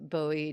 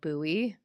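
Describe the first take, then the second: First: It sounds like the singer's surname. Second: It is said with the local pronunciation. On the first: This is how the famous name is said. "like the [name], [name]" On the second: This is how residents say the city name. "but they call it Bowie"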